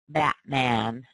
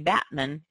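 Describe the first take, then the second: First: The last vowel is a full open a sound. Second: The last vowel is a reduced uh sound. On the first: The speaker calls it right. "We really do say ... keep the ah" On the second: The speaker calls it wrong. "We don't say"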